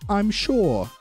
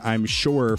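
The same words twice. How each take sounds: First: It is said in a cute Australian accent. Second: It is said in a Southern American accent. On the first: "Like a like a little cute Australian kid" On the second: "instead of like saying"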